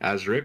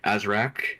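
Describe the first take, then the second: First: The last syllable has an 'ick' vowel. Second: The last syllable has an 'ack' vowel. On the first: The speaker calls it right. "before I realized it was Azric" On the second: The speaker calls it wrong. "I pronounced it as Azrak for like months"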